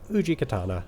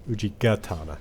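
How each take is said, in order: First: The second word begins with a K sound. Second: The second word begins with a G sound. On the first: The speaker calls it wrong. "I mispronounced it" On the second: The speaker calls it right.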